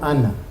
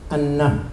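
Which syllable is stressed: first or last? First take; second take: first; last. First: The stress is on the first syllable. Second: The stress is on the last syllable. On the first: The speaker calls it wrong. "no ana" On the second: The speaker calls it right. "aná con acento al final"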